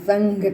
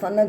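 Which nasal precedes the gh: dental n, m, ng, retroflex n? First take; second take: ng; dental n. First: An ng sound comes before the gh. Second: A dental n sound comes before the gh. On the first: The speaker calls it right. "પણ સંઘ કરીએ છીએ, અંગ ઉચ્ચાર કરીએ છીએ" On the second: The speaker calls it wrong. "નથી કરતા"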